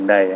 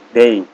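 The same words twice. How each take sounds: First: The vowel sounds like the word die. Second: The vowel sounds like the word day. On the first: The speaker calls it wrong. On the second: The speaker calls it right.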